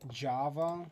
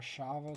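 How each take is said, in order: First: It starts with an English J sound. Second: It starts with a soft SH sound.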